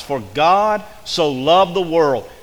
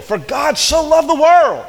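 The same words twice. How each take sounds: First: Slow, loud, every word weighed; slow emphatic quote. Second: High, loud, slow cry of the verse; shouted climax. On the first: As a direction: lay each word down heavily. Preacher quotes key verse. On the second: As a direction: cry it out to the back row. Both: Acted.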